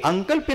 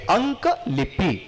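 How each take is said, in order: First: The word is run together with syllables squeezed. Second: The word is split into two clear parts. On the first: The speaker calls it wrong. "मुलं उच्चार उच्चार कसा करतात? अंकल्पी ... नाही" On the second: The speaker calls it right. "आपण हे तोडायला पाहिजे"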